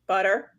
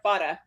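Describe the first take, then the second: First: It is said in her own plain accent. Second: It is said in a Coffee Talk New York accent.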